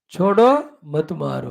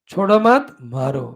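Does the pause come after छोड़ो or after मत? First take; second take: after छोड़ो; after मत. First: The pause comes after छोड़ो. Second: The pause comes after मत.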